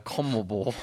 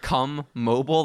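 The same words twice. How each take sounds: First: The word is said thickly, as if mouth is full. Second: The word is said clearly, like a brand name. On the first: "like someone has like marbles in their mouth" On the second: "like T-Mobile"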